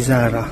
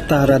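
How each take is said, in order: First: The name begins with a Z sound. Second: The name begins with a T-like sound. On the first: The speaker calls it wrong. "hindi Zara" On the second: The speaker calls it right. "Tara daw ang tamang pronunciation"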